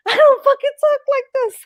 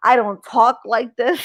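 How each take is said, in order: First: Much higher, louder, half-laughing; squeaky exasperated protest. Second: Said in the usual way. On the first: Real, not acted. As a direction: jump way up in pitch in disbelief.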